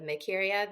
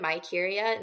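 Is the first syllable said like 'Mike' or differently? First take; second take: differently; like Mike. First: The first syllable does not sound like Mike. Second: The first syllable sounds like the name Mike.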